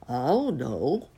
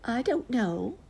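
First: Slow, drowsy uncle bear; sleepy uncle bear. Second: High-pitched drowsy aunt bear; sleepy aunt bear. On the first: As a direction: draw it out like a bear dozing off. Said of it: "said uncle and rumbled back to sleep". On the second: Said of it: "said aunt and tumbled back to sleep". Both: A narrator's reading.

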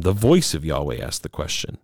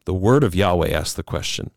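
First: "voice" picked out with a pitch peak; emphasis landing on "voice"; stress on voice. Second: "word" picked out for contrast; emphasis landing on "word"; stress on word. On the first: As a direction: lean on "voice", then drop away lower. Contrasting second time with first time. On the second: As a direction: lean on "word", then ease through the rest. Contrasting first time with second time. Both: Real, not acted.

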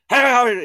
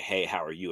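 First: High, loud, rapid-fire blurted shout; over-energetic kid. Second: Said in the usual way. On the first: Retold or imitated. Dad imitating his son's over-energetic talk, shouted high and loud. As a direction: imitate an excited kid yelling a greeting. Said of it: "he's got my energy level". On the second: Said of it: "instead of being like".

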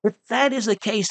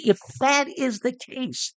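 First: Said in the usual way. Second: A high proclaiming call to the multitude; shouting to the crowd. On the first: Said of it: "Whitefield calls back". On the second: Retold or imitated. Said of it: "he shouts to the multitude".

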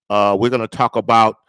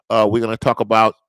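The two takes are said the same way.

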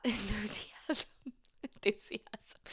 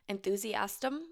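First: "Enthusiasm" whispered slow and soft with a laugh; a giggly, suggestive whisper of "Enthusiasm"; dirty-sounding whisper. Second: Said in the usual way. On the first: Shown as a demonstration. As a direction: breathe "Enthusiasm" out like it's naughty. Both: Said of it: "That word sounded dirty".

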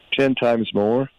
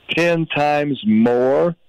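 First: Said in the usual way. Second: "Ten times more" drawn out slowly, "Ten" hit higher; slow stress on Ten times more. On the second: Real, not acted. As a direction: stretch each word of "Ten times more", leaning on "Ten". Repeats figure for emphasis.

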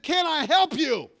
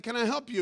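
First: High, loud, drawn-out exasperated shout; angry yell. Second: Said in the usual way. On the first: Retold or imitated. Pastor snaps at the man standing behind him, yelling. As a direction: yell each word slowly at him. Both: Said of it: "And I yelled at him".

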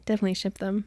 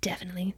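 First: Said in the usual way. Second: Soft conspiratorial whisper. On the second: Pretend. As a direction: breathe it like a secret. Whispered agreement.

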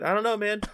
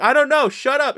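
First: Higher-pitched, hurried retold reply; imitating himself, unsure and pestered; mock uncertainty. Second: Loud, high-pitched comic outburst; retold cracking-point shout; exasperated mock yell. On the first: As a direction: play a mildly flustered brush-off. Retold answer to repeated pestering. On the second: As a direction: snap under pestering, shouting it out. Retold snapping at repeated questions.

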